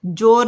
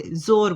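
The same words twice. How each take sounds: First: जोर with a hard j, the wrong way; wrong j sound. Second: जोर said as zor with a z; nukta z sound. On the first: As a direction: say जोर with j to show the mistake. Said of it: "जोर नहीं बोलते". (जोर को ज से, गलत उच्चारण) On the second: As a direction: say जोर with z, the right way. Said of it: "जोर बोलते हैं". (जोर को ज़ की आवाज़ से, सही) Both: Shown as a demonstration.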